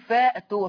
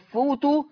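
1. الصوت الممدود بعد الحرف الأول ألف. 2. الصوت الممدود بعد الحرف الأول واو.

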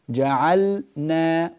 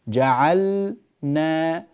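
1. تُنطق الكلمة بسلاسة دون وقفة. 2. هناك وقفة داخل الكلمة. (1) "وتقربينها حتى تصير جعلنا بهذه الطريقة" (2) "افصليها هكذا كما أفعل في التدريب"

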